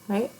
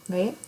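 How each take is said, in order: Both takes have the same delivery.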